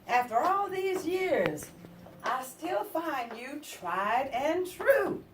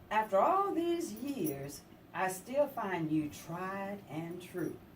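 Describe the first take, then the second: First: It is said a little louder. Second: It is said at normal, softer volume.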